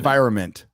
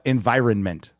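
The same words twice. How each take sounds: First: The N before 'ment' is left out. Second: The N before 'ment' is clearly pronounced. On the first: "Most of us say environment. You know, we just leave out the N" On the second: "But environment, I thought I'd enunciate"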